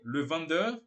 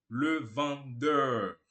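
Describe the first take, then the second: First: Said in the usual way. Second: Le vendeur in slow, separate syllables; drawn-out teaching take; slow pronunciation demo. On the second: Shown as a demonstration. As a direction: model it slowly and low, syllable by syllable. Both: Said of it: "você fala simplesmente".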